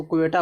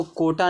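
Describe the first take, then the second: First: क्वेटा with a kw opening; correct reading क्वेटा. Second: कोटा with a plain k and long o; wrong reading कोटा. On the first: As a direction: glide from k through w into क्वेटा. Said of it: "इसको क्वेटा पढ़ते हैं". (क्वेटा, 'क्व' मिलाकर) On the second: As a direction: say कोटा without any w glide. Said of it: "इसको कोटा नहीं पढ़ते हैं". (कोटा, बिना 'व' के) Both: Shown as a demonstration.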